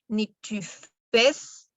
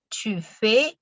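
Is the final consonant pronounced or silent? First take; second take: pronounced; silent. First: The final S sound is pronounced. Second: The final S sound is silent. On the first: The speaker calls it wrong. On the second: The speaker calls it right. "sino simplemente"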